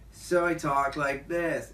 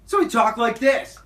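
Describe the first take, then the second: First: A chilled-out skater dude's voice, drawn out. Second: A sped-up, host-like twenty-year-old's voice.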